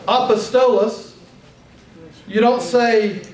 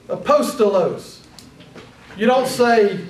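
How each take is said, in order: No difference in how they are said.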